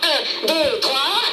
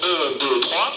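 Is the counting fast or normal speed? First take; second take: normal; fast. First: The counting is spoken at normal speed. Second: The counting is spoken very fast.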